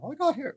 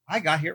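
First: It is said imitating the woman's accent. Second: It is said in the speaker's natural voice.

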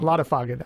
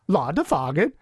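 First: The name is said in the speaker's ordinary accent. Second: The name is said with a put-on Danish accent.

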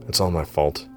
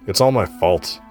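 First: It is said quietly, under the breath. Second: It is said in a louder voice.

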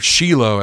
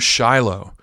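First: The name is pronounced the Hebrew way. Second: The name is pronounced the English way.

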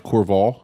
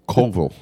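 First: An r sound is heard after the first vowel. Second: No r sound is heard after the first vowel.

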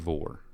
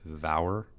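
First: The name rhymes with more. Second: The name rhymes with tower. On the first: The speaker calls it right. "but it's Trey Vore" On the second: The speaker calls it wrong. "I've pronounced it Vower"

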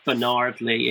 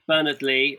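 First: The name is said the American way. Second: The name is said the British way.

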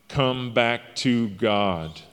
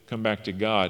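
First: It is said in an urgent, pleading way. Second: It is said in a plain, matter-of-fact way. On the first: The speaker is desperately begging the listener. "Paul's on his hands and knees begging. I'm begging you" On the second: It is a simple statement. "Paul doesn't just say it with"

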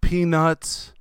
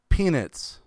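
First: The second syllable sounds like 'nuts'. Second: The second syllable sounds like 'nits'. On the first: The speaker calls it right. "I believe it would be pronounced peanuts" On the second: The speaker calls it wrong. "not peanuts"

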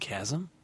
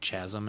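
First: Chasm is said with its usual standard pronunciation. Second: Chasm is said as guessed from its spelling. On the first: The speaker calls it right. "you mean a chasm?" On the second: The speaker calls it wrong. "remember I was pronouncing chasm"

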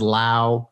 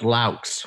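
First: The name ends without a final 'ks' sound. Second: The name ends with a final 'ks' sound. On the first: The speaker calls it wrong. "Everybody always says Lau" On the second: The speaker calls it right. "You say the X"

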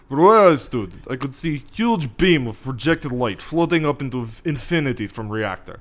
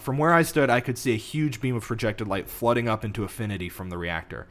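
First: It is said in a Russian accent. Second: It is said in the speaker's normal accent.

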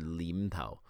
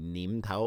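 First: The first word begins with an L sound. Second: The first word begins with an N sound.

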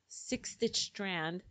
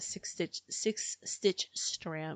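First: The phrase is said quickly. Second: The phrase is said at a normal pace.

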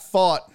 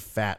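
First: The name is said with the vowel of 'fought'. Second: The name is said with the vowel of 'fat'. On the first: The speaker calls it right. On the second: The speaker calls it wrong.

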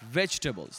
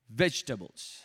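First: The word is said with an American accent. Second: The same.

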